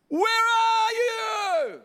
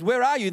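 First: It is said in an urgent, desperate way. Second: It is said in a gentle, compassionate way. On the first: The caller is anxious and fearful. The speaker calls it wrong. "You might have felt like desperation" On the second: The caller is loving and inviting. The speaker calls it right. "I think he said it with compassion"

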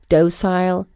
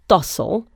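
First: It is said in a British pronunciation. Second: It is said in an American pronunciation.

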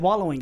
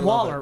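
First: The word is said with standard pronunciation. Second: The word is said in an East Texas way. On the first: The speaker calls it right. "I said it the right way" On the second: The speaker calls it wrong. "Like as we do in East Texas"

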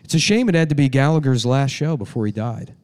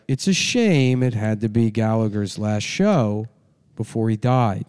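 First: It is read smoothly, without odd pauses. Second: It is read flatly with weird pauses.

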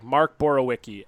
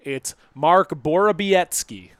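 First: The middle consonant does not sound like B. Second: The middle consonant sounds like a B. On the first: This is how everyone said it for years. "for years it was like Mark Borowiecki. Everybody pronounced it like that" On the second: This is the newly adopted way to say it. "The W is pronounced like a B"

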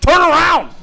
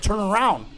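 First: It is said loudest, with forceful volume. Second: It is said louder, at moderate volume. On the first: The speaker is frustrated at being ignored. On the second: The first request was not heard.

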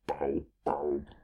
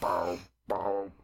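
First: It is said in a put-on monster voice. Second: It is said in an ordinary voice.

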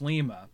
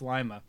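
First: The name is said the way Peru says it. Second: The name is said the way Ohio says it. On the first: "in Peru it's Lima" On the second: "it's Lima, folks"

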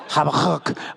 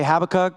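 First: It is said with a harsh, phlegmy throat sound. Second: It is said without any harsh throaty sound. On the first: The speaker calls it right. "you got to get a little something right in your throat right here, a little phlegm going" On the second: The speaker calls it wrong. "we're all saying it wrong"

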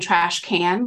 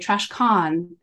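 First: The word 'can' has a flat American vowel. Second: The word 'can' has a broad British-style vowel. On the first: This is the ordinary way to say it. "instead of saying trash can" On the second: The speaker was putting on a fake accent. "I took on a fake British accent"

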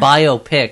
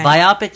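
First: It is said as bio plus pic. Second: It is said to rhyme with myopic. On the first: The speaker calls it right. "it's a moving picture that's a biography" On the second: The speaker calls it wrong. "Biopic sounds to me like myopic"

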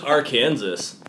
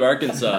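First: The word ends with the sound of 'Kansas'. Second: The word ends with the sound of 'saw'. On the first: The speaker calls it wrong. "I always thought it was Arkansas" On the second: The speaker calls it right. "instead of Arkansas"

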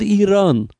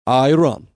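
First: It is said the native Iranian way. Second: It is said as a blend of both. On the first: This is what the country calls itself. "We are called Iran" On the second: This is a compromise between the two sides. "we are going to call you a compromise"

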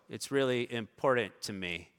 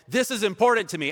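First: It is said softly, without conviction. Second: It is said loudly, with conviction.

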